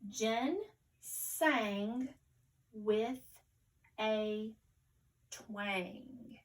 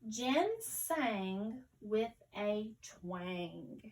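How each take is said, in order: First: It is read slowly, word by word. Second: It is read smoothly at a natural pace. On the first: "We'll read it very carefully first" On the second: "let's read it again more fluently"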